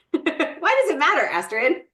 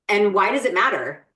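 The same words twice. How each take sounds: First: High laughing repeat of the question; giggly, playful nudge at cohost. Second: Said in the usual way. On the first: Real, not acted. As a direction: tease her through a laugh.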